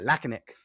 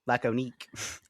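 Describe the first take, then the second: First: It is said with an English pronunciation. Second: It is said with a French pronunciation.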